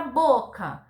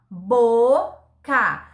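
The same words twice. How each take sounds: First: Said in the usual way. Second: "boca" loud, as a long BO, gap, then CA; sílaba por sílaba. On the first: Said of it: "A palavra". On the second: Shown as a demonstration. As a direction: break "boca" into two clear syllables. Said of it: "palavra que tem duas sílabas". ("boca" em voz alta, separando BO e CA)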